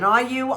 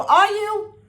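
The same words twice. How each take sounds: First: Said in the usual way. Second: Much higher and louder, challenging the audience; incredulous high repeat. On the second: Real, not acted. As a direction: throw the question at them, disbelieving. Repeated question, pushed harder.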